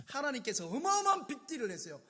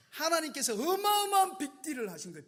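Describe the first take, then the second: First: Said in the usual way. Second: 어마어마한 stretched and pushed higher; stress on 어마어마한. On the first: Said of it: "하신 거예요 빅딜을". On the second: Real, not acted. Preacher stressing 어마어마한 about God's big deal, emphatic. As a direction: lean hard into 어마어마한. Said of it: "repeat of line 48".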